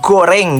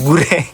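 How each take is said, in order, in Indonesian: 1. Vokal pertama bunyinya 'o'. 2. Vokal pertama bunyinya 'u'. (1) "Goreng, bukan gureng" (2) "bukan gureng"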